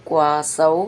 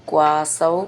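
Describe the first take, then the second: No difference in how they are said.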